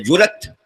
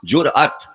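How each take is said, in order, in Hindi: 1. यह शब्द बिना ग्लोटल ब्रेक के सहजता से बोला जाता है। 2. इस शब्द में स्वर से पहले ग्लोटल ब्रेक होता है। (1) "कुछ जल्दी में बोल देते हैं" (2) "हमजा लगा अलिफ पर"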